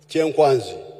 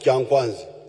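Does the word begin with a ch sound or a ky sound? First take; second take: ch; ky. First: The word begins with a ch sound. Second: The word begins with a ky sound. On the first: The speaker calls it right. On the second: The speaker calls it wrong.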